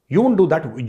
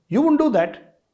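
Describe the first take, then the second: First: Said in the usual way. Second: High emphatic denial. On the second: Real, not acted.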